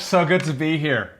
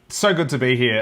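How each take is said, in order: First: It is said in an American accent. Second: It is said in an Australian accent.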